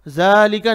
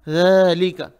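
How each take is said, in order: First: ज़ालिका with tongue kept behind the teeth; wrong z sound. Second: ज़ालिका starting with th as in "this"; correct soft dhal. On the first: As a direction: say ज़ालिका as zalika, buzzing z. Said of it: "ज़ालिका नहीं पढ़ेंगे". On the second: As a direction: say ज़ालिका with tongue tip slightly out. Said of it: "ज़बान थोड़ी बाहर निकालना". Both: Shown as a demonstration.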